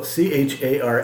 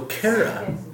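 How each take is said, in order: First: The word begins with a breathy H sound. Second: The word begins with a hard K sound. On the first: The speaker calls it right. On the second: The speaker calls it wrong.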